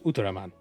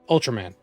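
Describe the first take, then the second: First: The name is said with a Japanese pronunciation. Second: The name is said with an English pronunciation.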